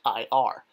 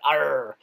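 First: The final R is light and barely sounded. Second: The final R is strongly growled and drawn out. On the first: The speaker calls it right. "It's just IR" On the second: The speaker calls it wrong. "It's not IRR, like a pirate"

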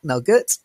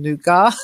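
First: The word is given a British pronunciation. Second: The word is given a French pronunciation. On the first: "as a Brit, I tend to say I like Nougat" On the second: "I'm using the French pronunciation Nougat"

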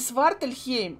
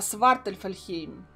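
First: The name is said with three syllables. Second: The name is said with four syllables. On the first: The speaker calls it wrong. "Не Свартальхейм" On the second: The speaker calls it right. "а Свартальфальхейм"

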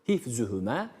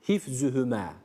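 Both takes have the same delivery.

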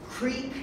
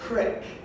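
First: The vowel is a long ee sound. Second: The vowel is a short i sound. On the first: "depends on how you say it, creek or crick" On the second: "depends on how you say it, creek or crick"

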